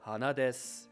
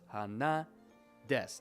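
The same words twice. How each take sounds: First: Pitch rises after ha and stays level through desu. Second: Pitch is high on na, then drops on desu. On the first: "heiban. So the word is flat, so it comes up, and then whatever follows is flat" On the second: "odaka, which is the tail is high"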